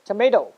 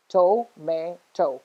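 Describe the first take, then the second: First: Said in the usual way. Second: "To-may-to" slowly, three separate beats; split syllables. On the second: Shown as a demonstration. Teacher counting syllables for students, "To-may-to" said slowly in pieces. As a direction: pause between each part of "To-may-to". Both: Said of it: "There are three syllables in this".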